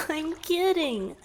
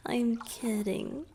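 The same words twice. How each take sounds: First: Higher and louder, still laughing. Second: Said in the usual way. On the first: Acted. Merman laughing off his flirty joke to his rescuer. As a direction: giggle it out.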